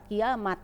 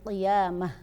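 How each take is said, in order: First: The word ends with a t sound. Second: The word ends with an h sound. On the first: The speaker calls it wrong. "enggak dibaca kiamat" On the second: The speaker calls it right. "tapi qiyamah gitu"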